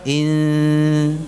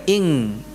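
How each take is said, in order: First: The nasal is made at the front, near s. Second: The nasal is made at the back, like ng. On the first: The speaker calls it right. "posisi mulutnya ada pada makhraj huruf sin" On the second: The speaker calls it wrong. "Jadi bukan ing"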